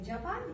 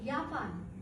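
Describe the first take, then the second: First: The word begins with a j sound. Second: The word begins with a y sound. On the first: This is how the speaker's own language says it. "हम क्या कहते हैं जापान" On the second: This is how German speakers say it. "जे आ गया और जे किसकी आवाज दे रहे, ये की।"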